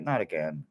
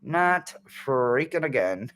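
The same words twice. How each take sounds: First: Low, soft resigned aside; weary muttered quote. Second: "freaking" drawn out for emphasis; exasperated quote. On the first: Voicing the card's face to viewers, low and weary. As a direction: drop it down, under your breath. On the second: Voicing the card's face, exasperated stress on "freaking". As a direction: lean hard on "freaking", then crack up. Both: Acted. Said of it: "She's like".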